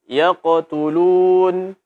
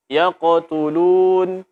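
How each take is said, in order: The two takes are said the same way.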